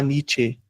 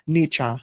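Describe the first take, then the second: First: The name is said with Brazilian Portuguese sounds. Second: The name is said with German sounds. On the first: "Como fala aqui" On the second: "tem que ser alemão"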